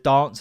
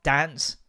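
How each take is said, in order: First: "dance" with a long AH, as in "father". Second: "Dance" with a flat A, as in "pants"; short-A dance. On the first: Showing the parent's preferred southern way, "dance" with long AH. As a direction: draw "dance" out as DAHNCE. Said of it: "instead of". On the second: Quoting the child's new way, "Dance" with short A. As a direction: say "Dance" with the short northern vowel. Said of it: "started saying, like, "Dance" instead of". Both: Shown as a demonstration.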